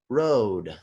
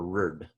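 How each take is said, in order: First: The whole word is said in full. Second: The word is said clipped, as its abbreviation. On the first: The speaker calls it right. "I'm going to read them like this" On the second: The speaker calls it wrong. "I'm not going to read it like this"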